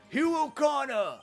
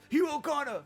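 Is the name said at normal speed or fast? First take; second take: normal; fast. First: The name is yelled at normal speed. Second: The name is yelled quickly.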